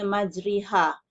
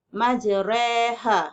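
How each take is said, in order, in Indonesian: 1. Vokal tengahnya adalah i tertutup yang jelas. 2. Vokal tengahnya ada di antara a dan i. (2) "di antara bunyi fathah dan kasrah"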